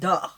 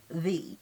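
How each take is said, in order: First: The word starts with a d sound. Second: The word starts with a th sound. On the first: This is how people in New Orleans speak. "Duh. With a D" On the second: This is the standard form a teacher asks for. "T H E the"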